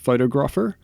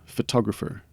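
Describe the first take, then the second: First: The stress is not on the second syllable. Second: The stress is on the second syllable. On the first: The speaker calls it wrong. "not photographer" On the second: The speaker calls it right. "the phrase is harder on the tog"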